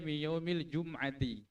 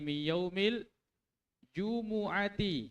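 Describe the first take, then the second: First: No vowel follows the m. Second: A u vowel follows the m. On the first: The speaker calls it wrong. "Nah baca min yaumil jum'ati" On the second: The speaker calls it right. "Dibaca dhamma itu mimnya"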